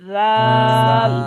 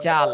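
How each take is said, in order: First: The first sound has the tongue tip past the teeth. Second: The first sound is made like a 'j'. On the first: The speaker calls it right. "শুদ্ধ উচ্চারণ কি হবে?" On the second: The speaker calls it wrong. "অনেকে আমরা জাল বলে ফেলি। জাল শুদ্ধ উচ্চারণ হবে না।"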